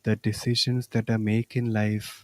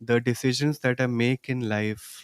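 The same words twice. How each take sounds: First: The words are spoken softly. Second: The words are spoken at normal volume. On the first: "Softly now" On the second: "In a normal voice now"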